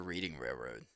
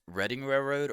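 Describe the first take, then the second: First: "Reading" in "Reading Railroad" said REED-ing; long ee in "Reading", like REED-ing; REED-ing pronunciation. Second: "Reading" in "Reading Railroad" said RED-ing; short e in "Reading", like RED-ing; RED-ing pronunciation. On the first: Wondering how Monopoly says it, "Reading" as REED-ing. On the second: Wondering how Monopoly says it, "Reading" as RED-ing. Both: Shown as a demonstration. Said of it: "how the Monopoly Reading is supposed to be pronounced".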